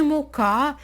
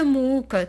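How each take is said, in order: First: "мука" stressed on the final syllable, mu-KA; stress on last syllable. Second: "мука" stressed on the first syllable, MU-ka. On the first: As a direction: say "мука" as mu-KÁ, accent at the end. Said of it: "це наголос". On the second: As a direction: say "мука" as MÚ-ka, accent up front. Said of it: "Розставте правильно наголос". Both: Shown as a demonstration.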